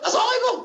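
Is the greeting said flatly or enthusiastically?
enthusiastically. It is said with lively enthusiasm.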